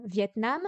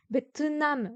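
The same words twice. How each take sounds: First: Said in the usual way. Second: Vietnam said the Korean way as be-teu-nam, slightly higher; teacher shows the Korean reading Vietnam as be-teu-nam; Korean pronunciation. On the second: Shown as a demonstration. Teacher showing students the Korean word, be-teu-nam pronunciation. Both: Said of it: "O, c'est pour la langue".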